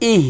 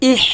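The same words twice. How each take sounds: First: ইহ closing on a gentle glottal h; light airy h. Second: ইহ with a strong, rasping h; ইহ ending in a long rough fricative from the throat; overdone harsh h. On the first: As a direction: let a little air out at the end of ইহ. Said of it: "হালকা বাতাস বের করবেন". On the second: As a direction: scrape the air hard at the end of ইহ. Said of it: "এটা কিন্তু হবে না". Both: Shown as a demonstration.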